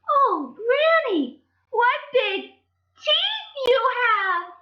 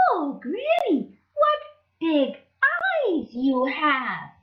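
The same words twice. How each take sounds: First: Put-on very high, slow, loud alarmed child; scared Little Red. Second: Put-on high, slow child voice; a curious, drawn-out question; wondering Little Red. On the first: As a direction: cry out at the teeth in mock fright.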